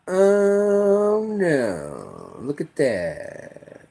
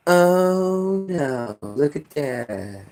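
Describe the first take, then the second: First: Slow, soft, fading mock dismay; mockingly feeble onlooker; mock helpless. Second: Slow, soft mock dismay; a limp bystander's sigh; mock helpless. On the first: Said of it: "standing on the sidelines just like". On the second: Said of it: "what do we do".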